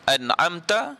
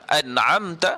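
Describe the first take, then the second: No difference in how they are said.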